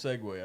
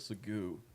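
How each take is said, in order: First: The word is pronounced in its usual standard way. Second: The word is deliberately pronounced in a distorted way. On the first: The speaker calls it right. "no it's it's it's segue" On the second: The speaker calls it wrong. "I pronounced it wrong on purpose"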